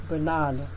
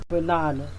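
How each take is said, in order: No difference in how they are said.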